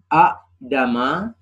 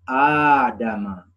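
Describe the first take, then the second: First: A glottal stop breaks up the opening vowels. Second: The opening vowel is one smooth long sound. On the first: This is the underlying original form. "contoh aslinya adalah a'dama" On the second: This is how it is actually recited. "maka dibaca dengan adama"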